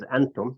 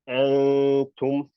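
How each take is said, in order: First: The n is pronounced as a clear, plain n. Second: The n is hidden in a held nasal sound. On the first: The speaker calls it wrong. "You don't read it as antum" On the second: The speaker calls it right. "You pronounce it as antum"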